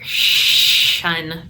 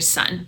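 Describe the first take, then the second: First: The s sounds slushy, close to sh. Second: The s sounds like a clear hiss. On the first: The speaker calls it wrong. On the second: The speaker calls it right.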